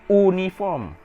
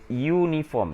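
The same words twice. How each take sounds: First: The word begins with a plain vowel sound. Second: The word begins with a consonant Y sound. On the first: The speaker calls it wrong. "you don't pronounce it uniform" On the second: The speaker calls it right. "you pronounce it uniform. So uniform, uh, the sound is the consonant sound"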